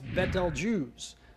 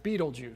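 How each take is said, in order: First: The name does not sound like 'beetle juice'. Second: The name sounds like the words 'beetle juice'. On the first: The speaker calls it right. "is correctly pronounced Betelgeuse" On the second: The speaker calls it wrong. "most people pronounce it Beetlejuice"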